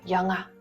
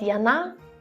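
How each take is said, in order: First: The middle consonant is a nasal ng. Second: The middle consonant is a plain n. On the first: The speaker calls it right. "Все же говорим как яңа" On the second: The speaker calls it wrong. "сказать «яна» будет не совсем верно"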